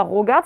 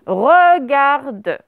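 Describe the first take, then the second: First: "regarde" said as "rogarde"; mispronounced first vowel. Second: "regarde" drawn out slowly as "re-gar-de"; correct first vowel. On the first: Teacher rejects the wrong form, mispronounced "rogarde". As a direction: put an o in the first syllable of "regarde". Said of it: "C'est pas regarde". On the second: Teacher corrects pupils' error, slow careful "re-gar-de". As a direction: stretch "regarde" with a clear schwa in "re". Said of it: "c'est regarde". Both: Shown as a demonstration.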